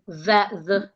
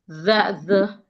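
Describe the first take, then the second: Both takes have the same delivery.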